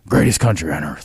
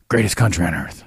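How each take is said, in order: First: It is said in a low, deep voice. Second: It is said in a normal voice.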